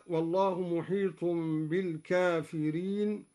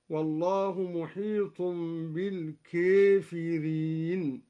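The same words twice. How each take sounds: First: الكافرين with an open aa; standard recitation. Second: الكافرين with the alef leaned toward e; Duri imala. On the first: Teacher reciting الكافرين with an open alef. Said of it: "قرأ الدوري بإمالة ألف الكافرين". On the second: Teacher showing students the imala of الكافرين. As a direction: say الكافرين as kaefireen. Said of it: "بإمالة ألف الكافرين، هكذا". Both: Shown as a demonstration.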